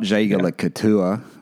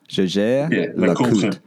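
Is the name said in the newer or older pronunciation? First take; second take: older; newer. First: The name is said in the older pronunciation. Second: The name is said in the newer pronunciation. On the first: The speaker calls it wrong. "Not Jaeger LeCoultre. That's how I used to say it" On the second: The speaker calls it right.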